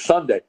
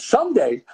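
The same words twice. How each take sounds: First: Said in the usual way. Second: Sunday? jumps way higher in disbelief; retold surprised question. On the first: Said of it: "And he goes". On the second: Hearing he must report Sunday, surprised high echo. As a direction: echo the day back, shocked it's so soon. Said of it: "I said".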